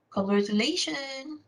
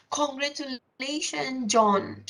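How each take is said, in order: First: Mock-bright "Congratulations" with a rising end; sarcastic congratulations. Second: Slow, warmly meant congratulations; really mean it, drawn out and falling; sincere congratulations. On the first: Teacher showing a sarcastic well-wisher, sneering. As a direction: say it like you don't mean it. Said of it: "you can see that there is sarcasm". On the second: Teacher showing a genuinely happy congratulation, sincere. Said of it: "when people congratulate you". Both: Shown as a demonstration.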